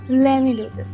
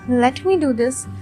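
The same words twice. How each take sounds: First: Let and me blend into one reduced word. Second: Let and me are said fully and separately.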